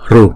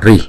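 First: The r is followed by a u sound. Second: The r is followed by an i sound. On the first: "một số vùng miền họ đọc là ru" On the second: "Có một số vùng miền ở Ấn Độ họ đọc là ri"

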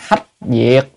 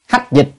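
First: The second syllable is pronounced diệt. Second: The second syllable is pronounced dịch. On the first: This is the original reading of the character. The speaker calls it right. "mình trả lại cái âm gốc" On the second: This is the reading found in the dictionary. The speaker calls it wrong. "Nhưng mà hách dịch thì không có hay"

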